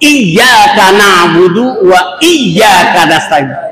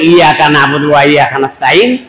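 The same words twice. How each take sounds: First: The y sound is doubled with a sharp catch. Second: The y sound is short with no catch. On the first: Only God is worshipped. The speaker calls it right. "ঝটকা দিয়ে হবে" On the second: The sun's light is worshipped. The speaker calls it wrong. "আমি সূর্যের আধারে ইবাদত করি"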